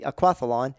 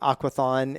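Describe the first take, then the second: First: It has an L sound before the end. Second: It has no L sound before the end. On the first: The speaker calls it right. "But it's actually aquathlon" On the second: The speaker calls it wrong. "A lot of people say aquathon"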